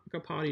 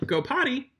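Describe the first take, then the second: First: Said in the usual way. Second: "Go potty" lifted higher, falling on potty; cue said higher and clearer. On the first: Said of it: "So if I told him". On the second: Shown as a demonstration. Trainer giving the potty cue to her dog, lifted and clear. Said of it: "And I'll say".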